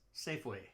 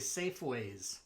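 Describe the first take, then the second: First: The name ends without an added s sound. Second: The name ends with an added s sound. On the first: The speaker calls it right. "it's Safeway" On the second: The speaker calls it wrong. "I hear people say Safeways. No"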